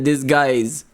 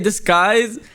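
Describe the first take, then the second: First: It is said like 'dis' then 'guys'. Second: It is split like 'disc' then 'skies'. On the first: Someone else said it this way. "he said it just like the way it's spelled" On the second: This is the speaker's own habit. "I say disguise. ... I pronounce it like disc and then skies"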